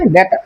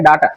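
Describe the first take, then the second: First: The first vowel sounds like 'ay'. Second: The first vowel sounds like 'ah'. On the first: The speaker calls it right. "এটার সঠিক উচ্চারণ হবে ডেটা" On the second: The speaker calls it wrong. "আসলে এটার উচ্চারণ ডাটা না"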